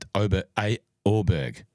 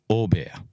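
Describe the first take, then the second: First: The surname is said in an English way. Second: The surname is said in a Swedish way. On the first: The speaker calls it wrong. "Or I could accept Orberg" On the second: The speaker calls it right. "hearing it from a Sweden's first PGA Tour winner two times"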